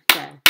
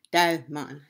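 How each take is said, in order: First: Desmond in two loud beats, Des-mond; syllable by syllable. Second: Said in the usual way. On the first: Shown as a demonstration. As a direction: punch out both syllables of Desmond. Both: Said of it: "They have two syllable".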